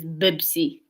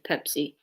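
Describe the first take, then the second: First: The word is said with B sounds. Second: The word is said with P sounds. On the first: This is how people in Saudi say it. "the way they pronounce it is Bibsi" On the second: This is the usual way to say it. "instead of Pepsi"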